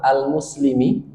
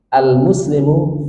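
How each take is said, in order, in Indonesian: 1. Kata ini diakhiri dengan vokal i. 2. Kata ini diakhiri dengan vokal u. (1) "tidak akan bisa dibaca jaa al-muslimi kasroh, nggak bisa" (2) "pasti dibaca dengan rofa dhammah"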